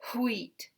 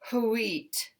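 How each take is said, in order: First: It is one syllable with a breathy start. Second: It is two syllables with an added oo sound. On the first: "It's still one syllable because there's still one vowel. And we just add an extra push of air" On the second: "if you add ooh, now we have a two-syllable word"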